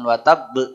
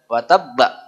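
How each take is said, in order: First: The final consonant bounces with an "e" sound. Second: The final consonant bounces with an "a" sound. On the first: The speaker calls it wrong. "kalau sampai be begitu ya salah ya" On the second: The speaker calls it right. "Wa tabba bukan wa tab"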